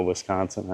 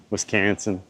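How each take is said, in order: First: Said in the usual way. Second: Midwestern Wisconsin accent, flattened middle vowel; Iowa-Wisconsin accent. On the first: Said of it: "my accent comes out on certain words". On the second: Shown as a demonstration. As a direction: say "Wisconsin" like "Wis-CAN-sin" in an Upper Midwest accent. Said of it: "my, like, Iowa, Wisconsin accent".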